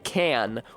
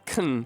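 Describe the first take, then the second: First: The word has a full, clear vowel. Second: The word has a weak, reduced vowel. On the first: The word is emphasized. "If I was to say can, or like a soda can" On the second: This is the usual form in quick speech. "it becomes de-emphasized to kun"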